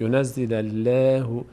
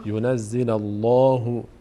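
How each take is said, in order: First: The L in Allah sounds thin and light. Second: The L in Allah sounds full and heavy. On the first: The speaker calls it wrong. "این باریک نباید بشه" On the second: The speaker calls it right. "باید پر بشه"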